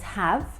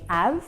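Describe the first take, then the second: First: The H at the start is pronounced. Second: The H at the start is dropped.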